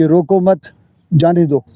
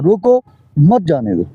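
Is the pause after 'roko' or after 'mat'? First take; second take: after mat; after roko. First: The pause comes after the word mat. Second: The pause comes right after the word roko.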